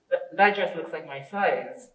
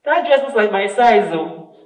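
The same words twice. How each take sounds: First: Restrained take at ordinary volume; contrasting tone. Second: Contrasting tone. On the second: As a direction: say it out loud as a pointed remark. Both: Shown as a demonstration. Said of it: "big difference in the way that we convey".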